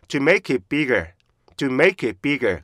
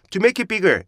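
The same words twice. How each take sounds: First: "to make it bigger" slow, with stops and strong "make"; slow English rhythm "to make it bigger"; correct chunked reading. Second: "to make it bigger" as 투메이키비거, no stops; Korean-style run-on "to make it bigger"; wrong joined reading. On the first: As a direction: model "to make it bigger" beat by beat. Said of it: "됐죠". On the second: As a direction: show "to make it bigger" blurred together. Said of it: "이런 소리가 나요". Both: Shown as a demonstration.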